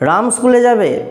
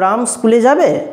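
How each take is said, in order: First: It is said in a stern, angry, commanding tone. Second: It is said in a doubtful, questioning tone. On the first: It is a strict order that must be obeyed. "একটা নির্দেশ দিচ্ছে, অর্থাৎ বোঝা যাচ্ছে রামের বাবা একটুখানি কিন্তু রেগে আছে" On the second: The speaker is curious or doubtful about it. "একটা সন্দেহ, একটা জিজ্ঞাস্য ভাব প্রকাশ পেল"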